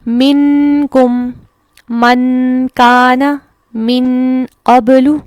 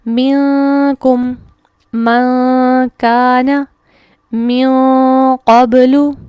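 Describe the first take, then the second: First: The n is fully pronounced with tongue contact. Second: The n is hidden without full tongue contact. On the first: "मैं उसको ज़बान को मखरज पर लगाते हुए अगर अदा करूं" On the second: "हम ज़बान को उसके मखरज पर नहीं लगाएंगे बल्कि उसके करीब करीब थोड़ा सा मुअल्लक रखेंगे"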